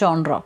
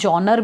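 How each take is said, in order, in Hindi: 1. यह अंतरराष्ट्रीय रूप से स्वीकृत तरीके से बोला जाता है। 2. यह भारत में प्रचलित तरीके से बोला जाता है। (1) "इसकी इंटरनेशनल प्रोनाउंसिएशन है जॉनरा" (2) "इंडिया में जॉनर भी प्रोनाउंस किया जाता है"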